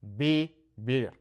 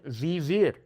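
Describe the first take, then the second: First: Slow vivir with soft b-like v's; soft B sound. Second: Vivir with hard English v's; wrong English V. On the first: Teacher correcting to the right sound. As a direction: say vivir slowly, like bibir. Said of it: "No, it's". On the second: Teacher warning students off a mistake. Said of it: "that you're not saying". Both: Shown as a demonstration.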